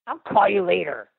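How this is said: It sounds grumpy and annoyed.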